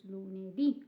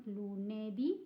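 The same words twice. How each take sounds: First: LUNEDÌ with the last syllable DÌ stressed and rising; stress on final DÌ. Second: LUNEDÌ stressed on the middle NE instead of the final DÌ; wrong stress. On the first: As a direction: land clearly on the DÌ of lunedì. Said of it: "you have to stress the word there". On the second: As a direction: misplace the stress in lunedì onto NE. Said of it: "it's not lunedì". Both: Shown as a demonstration.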